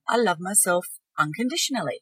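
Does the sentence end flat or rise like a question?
rising. It is stronger and rises like a question. The speaker is starting to half believe it. "A question mark on the end"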